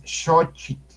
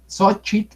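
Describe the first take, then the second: First: Xochitl with x as sh, "SHO-chit"; careful "Xochitl" opening with sh; correct Nahuatl pronunciation. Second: Xochitl with x as s, "SO-chit"; everyday "Xochitl" with an s; common mispronunciation. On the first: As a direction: start "Xochitl" on a slow sh. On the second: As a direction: start "Xochitl" on a plain s. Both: Shown as a demonstration. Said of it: "Xochitl es Xochitl".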